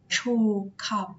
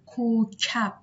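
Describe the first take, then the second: First: The word begins with a ch sound. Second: The word begins with a hard k sound. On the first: The speaker calls it wrong. "نمیگیم چوکب" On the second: The speaker calls it right. "ما میگیم کوکب"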